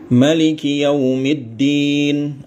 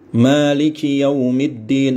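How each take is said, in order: First: The vowel after the m is short. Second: The vowel after the m is long. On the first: "dengan hadful alif ya. Alifnya dibuang" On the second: "Panjang manya ya"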